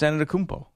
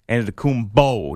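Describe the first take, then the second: First: The consonant near the end is a P. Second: The consonant near the end is a B. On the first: This is the speaker's own way of saying it. The speaker calls it right. "it's a P-O" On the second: Someone else says it this way. The speaker calls it wrong. "he's using the B sound at the end"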